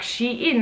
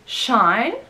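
First: It is said as 'she' plus 'n'. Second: It is not said as 'she' plus 'n'. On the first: It is the clothing brand. "the clothing brand people are saying Shein, like Shein" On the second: It is a personal name or surname. "if it's a name or surname, it's said Shein"

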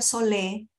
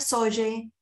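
First: The name is said as two syllables, 'so-lé'. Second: The name is said as two syllables, 'soye'. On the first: "no se pronuncia solé" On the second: "No se pronuncia soye"

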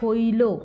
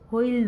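First: The word ends with a final vowel sound. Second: The word ends with a bare consonant. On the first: The speaker calls it right. "এটা হইল" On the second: The speaker calls it wrong. "হইল নয়"

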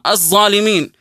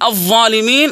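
First: The first consonant is a heavy z sound. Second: The first consonant is a heavy voiced th sound. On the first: The speaker calls it wrong. "وهذا خطأ" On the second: The speaker calls it right. "بدل ما يقول الظالمين"

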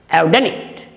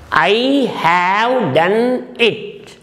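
First: The words I and have are joined together. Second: The words I and have are said separately.

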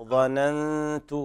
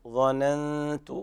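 No difference in how they are said.

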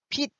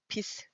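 First: It is one syllable ending in a stop. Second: It is two syllables with an audible s. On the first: This is the modern pronunciation. "빛 이렇게 발음을 하는 게 아니라" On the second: This is the reconstructed Middle Korean pronunciation. "시옷 발음이 돼야 되니까 비스 이렇게 발음이 됐을 것이다"

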